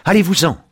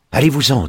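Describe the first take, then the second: First: Much higher and much louder, near a scream; panicked old woman shrieking at the door; frightened shriek. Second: Put-on higher, louder frightened old woman; a first frightened push, not yet at full force; shooing him away. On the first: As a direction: she breaks into a desperate cry to drive it away. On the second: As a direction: wave the figure off, pitched up and loud. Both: A narrator's reading. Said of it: "dit-elle en agitant la main".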